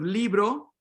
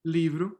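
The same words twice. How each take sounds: First: Libro ending in a clear o; libro, rounded final o; Spanish o. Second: Livro ending near u; livro, last vowel closed to u; raised final o. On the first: Teacher modeling the Spanish word, clear o. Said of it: "instead of". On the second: Teacher modeling the Portuguese word, o raised to u. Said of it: "O raises to u". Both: Shown as a demonstration.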